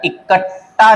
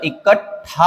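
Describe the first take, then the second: First: इकट्ठा said as 'ikat-taa'; no puff of breath ending इकट्ठा; wrong unaspirated ending. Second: इकट्ठा said as 'ikat-thaa'; correct aspirated ending. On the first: Teacher rejects a common error, इकट्ठा with unaspirated taa. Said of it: "नहीं होता". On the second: Teacher gives the correction, इकट्ठा with aspirated thaa. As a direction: puff the breath on ठा in इकट्ठा. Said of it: "होता है". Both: Shown as a demonstration.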